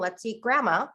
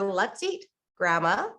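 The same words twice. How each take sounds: First: It runs on without a pause before Grandma. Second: There is a clear pause before Grandma.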